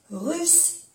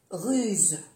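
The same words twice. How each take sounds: First: "Russe" pitched high, ending in an unvoiced s; double S. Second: "ruse" falling, ending in a voiced z; soft Z. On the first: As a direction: lift "Russe" and end on a hiss. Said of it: "pronunciar bien las dos S". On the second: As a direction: say "ruse" with a final buzz. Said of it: "se pronuncia como una Z suave". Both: Shown as a demonstration.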